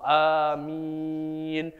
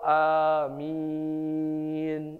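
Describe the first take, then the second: First: The second vowel is held moderately long. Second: The second vowel is held very long. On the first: "boleh empat" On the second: "boleh enam"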